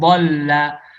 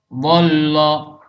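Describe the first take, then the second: First: The L sound is thin and light. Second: The L sound is thick and heavy. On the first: The speaker calls it right. "lamnya tetap tipis" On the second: The speaker calls it wrong. "bolla dibaca bollo"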